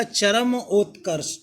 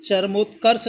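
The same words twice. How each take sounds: First: चरम उत्कर्ष slowly, cha-ram then ot-karsh; full r syllable. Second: चरमोत्कर्ष run together as char-mot-karsh; wrong pronunciation. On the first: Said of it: "र पूरा रहेगा". (चरम उत्कर्ष में पूरा "र") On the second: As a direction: squeeze the start of चरमोत्कर्ष to "char". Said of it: "चरमोत्कर्ष नहीं होगा". (गलत उच्चारण, चरमोत्कर्ष में "चर्मो") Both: Shown as a demonstration.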